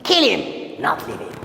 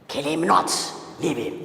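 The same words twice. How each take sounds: First: Kill him, then a break before not leave him; pause after him. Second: Kill him not, then a break before leave him; pause after not. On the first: Teacher reading the second comma version with the pause after him. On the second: Teacher reading the first comma version with the pause after not. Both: Shown as a demonstration. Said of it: "let me put comma here".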